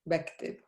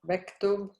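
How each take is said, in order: First: The second syllable has an 'i' vowel. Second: The second syllable has a 'u' vowel. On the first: "pronounce it with a kasra" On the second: "if it's a dhamma"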